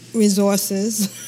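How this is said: It is said in an imitated European accent.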